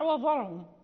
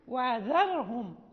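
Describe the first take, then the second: First: The dh sound is heavy and emphatic. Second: The dh sound is light and thin. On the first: The speaker calls it wrong. "إذا لم نستفيل بها تصبح وذرهم" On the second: The speaker calls it right. "لابد من الاستفال والترقيق"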